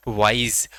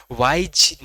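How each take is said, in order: First: Said in the usual way. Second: वाइज ending in a j sound in place of z; wrong final sound. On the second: Shown as a demonstration. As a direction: say वाइज as "waij", not "waiz". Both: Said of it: "वाइज नहीं है ये".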